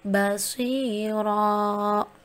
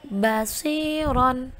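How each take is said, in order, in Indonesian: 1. Kata itu berakhir dengan vokal 'o' panjang. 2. Kata itu berakhir dengan bunyi 'on'.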